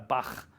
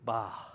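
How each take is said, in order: First: It ends with a harsh throaty rasp. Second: It ends with a soft breathy h. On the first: The speaker calls it wrong. "not a bach, because that would be a het at that point" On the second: The speaker calls it right. "Not a guttural, but it's just an aspirated he"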